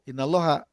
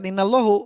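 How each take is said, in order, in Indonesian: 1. Kata ini berakhir dengan vokal 'a'. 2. Kata ini berakhir dengan vokal 'u'. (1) "Ingatnya innalloha gitu" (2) "bukan innallohu"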